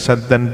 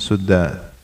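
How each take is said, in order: First: The first syllable has the vowel 'a'. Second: The first syllable has the vowel 'u'. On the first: "Bi fathis sin, dengan fathah sinnya" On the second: "dan riwayat yang lain dibaca dhammah sinnya"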